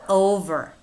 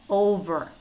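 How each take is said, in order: Both takes have the same delivery.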